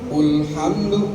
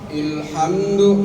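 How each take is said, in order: First: The word begins with a 'u' vowel. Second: The word begins with an 'i' vowel. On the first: "dengan doma" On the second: "pakai kasroh"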